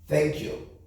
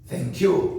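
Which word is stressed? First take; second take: thank; you. First: The stress is on thank. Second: The stress is on you.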